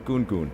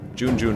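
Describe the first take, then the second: First: The name begins with a hard G sound. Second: The name begins with a soft J sound. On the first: This is how everyone says the name. "everyone says Goon, which is preferred" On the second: This is the name's original pronunciation. "is the original pron pronunciation"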